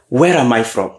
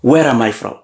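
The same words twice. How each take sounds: The two takes are said the same way.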